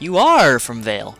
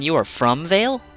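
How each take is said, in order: First: The stress is on the word are. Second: The stress is on the word from.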